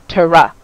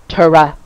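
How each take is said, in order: First: The T and R are separated by a vowel. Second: The T and R are separated by a vowel.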